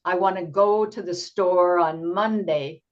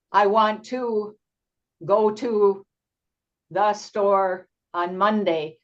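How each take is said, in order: First: I wanna go to the store on Monday in one easy phrase; teacher modelling a smooth thought group; smooth chunk. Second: I want to, go to, the store on Monday, broken by long gaps; mock choppy student reading; choppy pauses. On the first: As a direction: say it in one flowing breath. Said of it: "But if they speak in chunks". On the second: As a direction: break it up word by word like a struggling student. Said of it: "it's hard to understand". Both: Shown as a demonstration.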